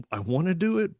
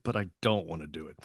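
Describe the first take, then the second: First: Eager. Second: Dont dropped much lower and softer; reluctant. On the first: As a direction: do pitched much higher, keen. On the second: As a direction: sink into the reluctant side. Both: Retold or imitated. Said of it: "secret thrill".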